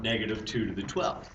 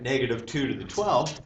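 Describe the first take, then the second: First: The words 'negative two' are grouped together. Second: The words 'two to the twelve' are grouped together. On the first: The whole quantity negative two is raised to the power. The speaker calls it right. "We want negative two to the twelve. Notice how I say that differently?" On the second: Only the two is raised to the power, then negated. The speaker calls it wrong. "if you write negative two to the twelve, like this, that answer is going to come out negative"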